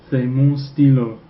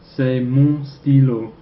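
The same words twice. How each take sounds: First: Slow repeat of C'est mon stylo; repeated French model. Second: Slow, careful French: C'est mon stylo; slow French model. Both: Shown as a demonstration. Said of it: "That would be".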